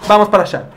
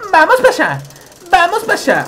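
First: Said in the usual way. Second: Much higher, sing-song; cartoon high voice; high silly voice. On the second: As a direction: squeak it out playfully. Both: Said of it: "repeats in voices".

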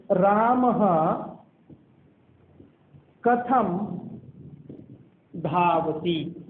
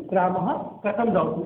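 First: Word by word with long pauses; drawn-out syllables, as if writing along; slow dictation. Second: Said in the usual way. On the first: Shown as a demonstration. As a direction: dictate it very slowly, pausing after each word. Dictating the question while writing it.

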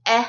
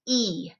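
First: E as short "eh", as in met. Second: E as long "ee", as in meet. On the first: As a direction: say e as a brief "eh" sound. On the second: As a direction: say e as a drawn-out "ee". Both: Shown as a demonstration. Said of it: "changing a short sound to a long sound".

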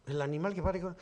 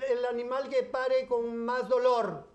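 First: Said in the usual way. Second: Higher, slow riddle-asking voice; the neighbour posing her riddle. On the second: Retold or imitated. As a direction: pose the riddle slowly as the neighbour. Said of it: "Y me dice".

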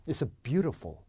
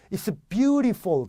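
First: It's beautiful as a native English "BYU-ruh-fol"; native English accent. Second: It's beautiful with Korean-clear "byu-ree-fol"; Korean accent. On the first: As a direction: native English accent, middle vowel swallowed. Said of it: "원어민 같죠?". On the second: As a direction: give away a Korean accent through full vowels. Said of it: "한국 사람인 거 티나는 거예요". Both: Shown as a demonstration.

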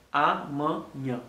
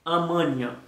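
First: "Amanhã" slowly as "a... man... nya"; syllable by syllable. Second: Said in the usual way. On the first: Shown as a demonstration. Teacher sounding out a word for learners, syllable by syllable. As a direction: break "Amanhã" into three slow syllables. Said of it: "Premye son ki vin". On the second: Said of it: "sa gen de son ki vin ladan".

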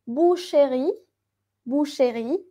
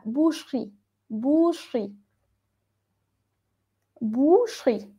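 First: "boucherie" wrongly in three beats, "boo-she-ree"; middle E sounded. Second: "boucherie" as "boosh-ree", the E swallowed; barely heard middle E. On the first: Teacher shows students what not to say, middle E fully voiced. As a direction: say "boucherie" with a clear E after the CH. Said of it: "no decimos boucherie". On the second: Teacher gives the correct form, middle E very faint. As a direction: say "boucherie" in two beats, falling at the end. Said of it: "esta E suena muy bajito". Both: Shown as a demonstration.

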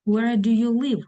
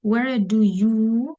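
First: Said in the usual way. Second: Slow, stretched YOU left hanging; fill-in-the-blank teacher prompt; drawn-out prompt. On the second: Shown as a demonstration. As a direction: stretch "you" and leave the question open. Pauses for students to supply verb.

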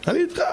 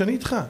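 First: "אני איתך" lifted much higher, with a rise on "איתך"; emphatic reassurance. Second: Reassuring. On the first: Preacher showing how to comfort a crying child, pitched up high. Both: Shown as a demonstration. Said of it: "תן לו להרגיש".

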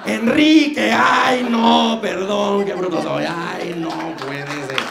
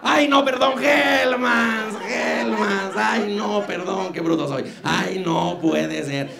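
First: High, loud flustered shout, slowing down; shrieking mock self-correction. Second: Shrieking high self-correction, then calming down; flustered high-pitched mock correction. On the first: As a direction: yell the slip, then fake the embarrassment. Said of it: "la riega siempre". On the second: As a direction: [name] imitating his own on-air blunder, shrill then fading. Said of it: "cuando dije mayonesa McCormick".

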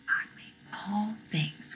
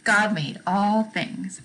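First: Soft breathy whisper of the answer. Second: Steady slow unison recital. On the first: Teacher whispering the catechism answer to children. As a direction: whisper it as a hint. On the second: Teacher reciting the answer along with children. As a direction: say it together slowly. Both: Shown as a demonstration. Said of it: "Say it with me".

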